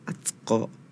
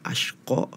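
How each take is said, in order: First: The middle consonant is a 'th' sound. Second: The middle consonant is an 'sh' sound. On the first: The speaker calls it wrong. "tapi tadi dibacanya atsko" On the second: The speaker calls it right. "yang seharusnya tadi dibacanya ashko"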